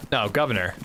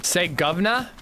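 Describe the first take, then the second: First: Governor, said firm and falling, lower; correct governor. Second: Governor, said with a questioning rise; governor with rising tune. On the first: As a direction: settle it: no, governor. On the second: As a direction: ask it: governor?. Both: Shown as a demonstration.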